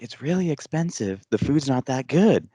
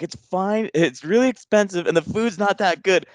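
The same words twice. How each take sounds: First: Raised pitch, retold insistence; repeating for dad. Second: High-pitched, mock-mad outburst; retold exasperated scream. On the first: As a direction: say it over for someone hard of hearing. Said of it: "And then I finally scream it". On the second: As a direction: imitate yourself losing patience with a deaf dad. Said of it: "I finally scream it 'cause I'm not realizing, and I'm just mad".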